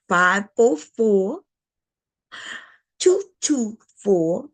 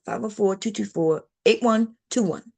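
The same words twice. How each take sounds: First: Slow, deliberate number read-out; drawn-out dictation of a phone number; said slower. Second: Quick, run-together number read-out; rushed habitual phone number; fast habit. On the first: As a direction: spell each digit out slowly for the viewers. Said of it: "but I'm gonna say it slower". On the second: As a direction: rattle the digits off the way you always do. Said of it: "I gotta say it fast". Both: Shown as a demonstration.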